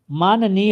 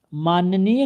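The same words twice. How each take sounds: First: माननीय as maa-na-neey with no y glide; correct form demonstrated. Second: माननीय said maan-ya-neey, with y inserted; wrong form demonstrated. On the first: Teacher drills the right word, correcting. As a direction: give माननीय a clean middle "na". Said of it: "होता है". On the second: Teacher drills the rejected word, demonstrating an error. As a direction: put a y glide inside माननीय. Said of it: "नहीं होता है". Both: Shown as a demonstration.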